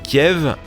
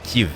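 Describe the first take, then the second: First: The name is pronounced like Kiev. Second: The name is pronounced like Kyiv. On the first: It uses the Russian form of the name. "La première est russe" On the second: It uses the Ukrainian form of the name. "la seconde cent pour cent ukrainienne"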